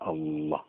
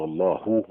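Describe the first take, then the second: First: The final h carries no vowel. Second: The final h is followed by u. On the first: The speaker calls it right. "تقف عليها سكون" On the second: The speaker calls it wrong. "بالضمه ما يصح"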